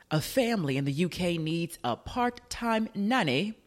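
It is said in a put-on British accent.

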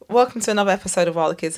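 It sounds unwilling and reluctant.

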